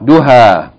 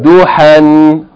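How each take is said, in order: First: The word ends with a plain vowel. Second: The word ends with an n sound. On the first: The reading stops on this word. "stop or pause mode" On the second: The reading continues past this word. "continual mode"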